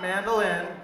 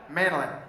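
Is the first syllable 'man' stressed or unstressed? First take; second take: unstressed; stressed. First: The first syllable 'man' is not stressed. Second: The first syllable 'man' is strongly stressed. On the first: The speaker calls it wrong. "It's not mandolin" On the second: The speaker calls it right. "He puts the man right in the mandolin"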